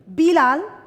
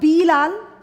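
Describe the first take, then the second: First: The first vowel is kept short. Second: The first vowel is drawn out long. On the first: The speaker calls it right. "तो बिलाल मतलब कि तुम्हारी मात्रा में लग रहा है छोटी ई" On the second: The speaker calls it wrong. "अब मैं बोलू बीलाल, बहुत हंसी आएगी तुम्हें सुनकर"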